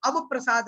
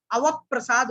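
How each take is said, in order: First: अवप्रसाद split as "av-prasad", single प; unjoined reading. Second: अवप्रसाद as "avap-prasad", प doubled; joined conjunct. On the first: Teacher showing the common mistake, अवप्रसाद unjoined as av-prasad. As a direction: say अवप्रसाद with अव apart from प्रसाद. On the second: Teacher correcting pupils' Sanskrit, अवप्रसाद joined as avap-prasad. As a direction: close the second syllable of अवप्रसाद on प: avap-prasad. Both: Shown as a demonstration. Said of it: "नहीं अवप्रसाद हो जाएगा".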